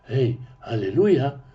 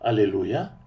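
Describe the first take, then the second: First: The word starts with a faint, soft h. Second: The word starts directly with a vowel. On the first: "с чуть заметным" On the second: "говорить по-русски «аллилуйя»"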